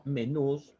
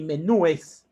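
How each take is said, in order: First: "menús" with only s after stressed ú; correct plural menús. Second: "menúes" slow, stressed ú followed by -es; incorrect plural menúes. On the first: Teacher correcting the plural for students, "menús" ending straight in s. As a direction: say "menús" slowly, no e before the s. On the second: Teacher rejecting a plural, "menúes" slowly with stressed ú and -es. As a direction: stretch "menúes" into a clear added -es syllable. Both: Shown as a demonstration. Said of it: "sino menús".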